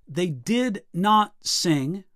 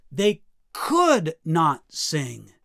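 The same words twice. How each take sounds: First: Slow, separate weight on "did not"; stress on DID NOT. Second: "could" lifted and drawn out, very slow; stress on COULD. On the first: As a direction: space out "did not sing", left hanging. Contrasting did not with could not. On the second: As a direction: lean hard on "could", then fall away. Contrasting could not with did not. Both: Shown as a demonstration.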